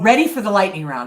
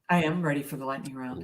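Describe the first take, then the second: First: It is said with lively enthusiasm. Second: It is said flatly, without enthusiasm.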